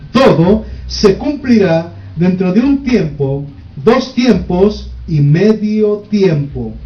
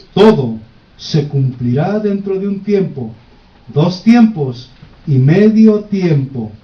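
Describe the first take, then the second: No difference in how they are said.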